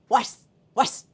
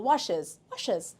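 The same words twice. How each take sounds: First: "washes" cut to one syllable, s jammed on sh; impossible washes. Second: "washes" in two syllables, ending in "iz"; correct washes. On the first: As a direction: try "washes" with no vowel before the ending. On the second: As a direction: say "washes" with a short vowel before the z. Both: Shown as a demonstration. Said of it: "It's impossible".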